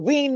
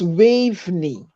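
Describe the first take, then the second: First: The name is said short, as 'Wayne'. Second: The name is said fully, as 'Waveney'. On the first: The speaker calls it wrong. "He pronounced my first name incorrectly" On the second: The speaker calls it right. "That is how you pronounce it"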